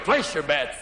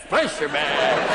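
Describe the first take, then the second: First: Lightly voiced croupier, lower pitch; low call to the table. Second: Low, slow croupier cry; croupier call. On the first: Spinning room becomes roulette, low croupier call. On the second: Acted. Spinning room becomes roulette, drawn-out croupier call. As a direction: stretch the call out long and low.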